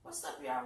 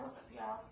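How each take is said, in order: First: Much lower, playful deep greeting. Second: Said in the usual way. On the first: Pretend. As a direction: drop the voice way down for fun. Two-take greeting, deep first.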